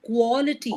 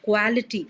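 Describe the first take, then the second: First: The first vowel is a clear O. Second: The first vowel is not a clear O. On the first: The speaker calls it right. "the sound is a clear O sound" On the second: The speaker calls it wrong. "you are pronouncing it as quality"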